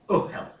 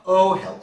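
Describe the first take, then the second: First: The word starts with a catch in the throat. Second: The word starts smoothly on the vowel. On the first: The speaker calls it right. "You hear that?" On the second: The speaker calls it wrong. "If the sound just came from the vowel, it would be oh hell"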